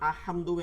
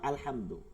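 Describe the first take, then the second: First: The L sound is dropped before the H. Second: The L sound is pronounced before the H. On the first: The speaker calls it wrong. "কেন আহমা আহমদু এরম পড়লাম না?" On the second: The speaker calls it right. "কারণ হা হচ্ছে কমারি হরফ, এর জন্য কিন্তু আলহামদু"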